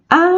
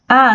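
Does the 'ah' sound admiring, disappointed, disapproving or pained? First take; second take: pained; disappointed. First: The ah sounds pained. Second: The ah sounds disappointed. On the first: The speaker is hurt. "indicando dor" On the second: The speaker did not get what they wanted.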